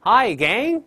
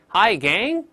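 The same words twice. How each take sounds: First: Hi Gang higher and louder, bright rise on Gang; cheerful greeting. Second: Hi Gang said slowly, rising on Gang; slow demo. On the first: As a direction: greet the whole gang with a lively lift. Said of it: "再来一遍". (热情地大声问候Hi Gang) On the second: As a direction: ease into Hi Gang slowly, lifting Gang. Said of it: "慢慢来". (慢慢领读Hi Gang) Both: Shown as a demonstration.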